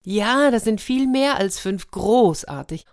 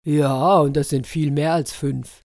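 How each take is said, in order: First: High, delighted exclamation; elated, high-pitched leopard; beaming with joy. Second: Firm, louder start at usual pitch; solid, matter-of-fact elephant; elephant confirming. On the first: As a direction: cheer the wonderful news. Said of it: "der Leopard strahlte vor Glück". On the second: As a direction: confirm it with weight. Elephant confirms the higher count. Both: A narrator's reading.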